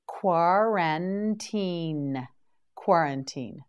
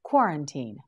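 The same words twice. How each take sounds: First: Slow model word. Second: Said in the usual way. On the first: Shown as a demonstration. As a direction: stretch out Quarantine slowly, syllable by syllable. Teacher models word three times.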